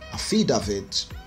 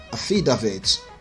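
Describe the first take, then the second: First: It is said in a Nigerian accent. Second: It is said in a Nigerian accent.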